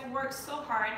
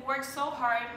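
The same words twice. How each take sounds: The two takes are said the same way.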